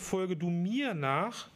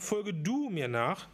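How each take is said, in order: First: The word mir carries the main stress. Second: The word du carries the main stress. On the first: The one to be followed is at the center. "Wenn ich betone, folge du mir nach, Jesus steht in der Mitte des Lebens" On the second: The call is addressed personally to each listener. "Und dann noch die Betonung, folge du mir nach, ... es ist höchst persönlich gemeint"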